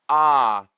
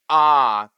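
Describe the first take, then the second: First: The vowel starts with a sharp glottal catch. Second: The vowel starts with a sharp glottal catch.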